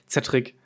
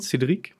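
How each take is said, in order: First: The name is said with German pronunciation. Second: The name is said with French pronunciation. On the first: "oder halt deutsch ausgesprochen" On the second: "man kann es ja französisch aussprechen"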